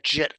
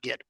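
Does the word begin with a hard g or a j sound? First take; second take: j sound; hard g. First: The word begins with a soft j sound. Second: The word begins with a hard g sound. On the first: The speaker calls it right. "You pronounce that Jit" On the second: The speaker calls it wrong. "not Git, because Git is a bad word"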